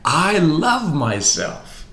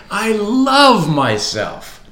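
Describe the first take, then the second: First: Slow, higher and heartfelt; mean every word, slowly; said as if meant. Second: Slow, high, loud declaration; louder, with conviction. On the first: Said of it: "say it as if you meant it". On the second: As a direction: proclaim it with full force. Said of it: "Come on, say it again". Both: Shown as a demonstration.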